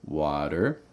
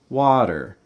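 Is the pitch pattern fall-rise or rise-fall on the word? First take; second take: fall-rise; rise-fall. First: The pitch falls on the first syllable, then rises. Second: The pitch rises on the first syllable, then falls. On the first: "Notice I have that fall on the wa and then up on the der" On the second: "Rising on the wa, falling on the der"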